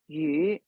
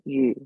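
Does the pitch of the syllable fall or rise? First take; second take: rises; falls. First: The pitch rises from mid level. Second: The pitch starts low and falls. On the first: It means fish. "that's your second mid uh, mid rising" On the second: It means having a surplus. "that yu is the fourth low falling tone"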